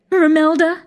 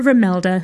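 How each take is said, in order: First: High, sing-song call. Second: Said in the usual way. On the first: A narrator's reading. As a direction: call her name up high. Hostess calls to her mother.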